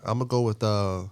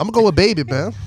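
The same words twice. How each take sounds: First: Soft, measured news-reporter read. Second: Higher, louder hyped announcement; excited. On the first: Pretend. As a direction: announce it like a calm reporter. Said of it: "He go with the reporter voice again". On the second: Real, not acted. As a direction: burst out with the pick. Drops reporter voice, announces pick.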